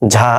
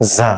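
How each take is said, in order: First: It begins with an aspirated 'jh' sound. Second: It begins with a buzzing 'z' sound. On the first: The speaker calls it wrong. "ঝা এটা উচ্চারণ ঠিক না" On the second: The speaker calls it right. "তালব্য স ঝয়ের যোগফল বাংলায় যা"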